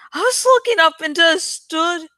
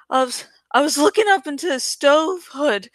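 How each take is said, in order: First: "stood" said in place of "stove hood", a reading slip; misreading. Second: "stove hood" said in full as two clear words; corrected reading. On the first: Reader misreads the stove hood line as "stood". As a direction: stumble and read "into a stood". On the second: Reader corrects himself, saying "stove hood" clearly. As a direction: fix the slip and read "stove hood" properly. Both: Real, not acted.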